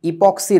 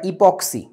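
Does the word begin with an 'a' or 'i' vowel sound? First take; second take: i; i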